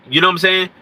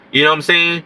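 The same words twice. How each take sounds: The two takes are said the same way.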